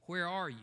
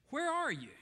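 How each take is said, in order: First: Said in the usual way. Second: "Where are you?" pitched much higher and louder, falling; high urgent plea. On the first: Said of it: "repeated question". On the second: Real, not acted. Preacher calling out to his listeners, pitched high and pleading. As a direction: cry out the question far higher.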